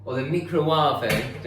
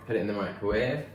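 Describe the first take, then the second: First: "microwave" as "mee-kro-warve" with slow, drawn vowels; mock odd pronunciation. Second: Said in the usual way. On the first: Shown as a demonstration. Joking about how some people say it, "mee-kro-warve". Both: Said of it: "don't they say?".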